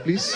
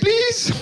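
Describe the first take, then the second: First: It is said calmly and casually. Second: It is said in a panicked, desperate way.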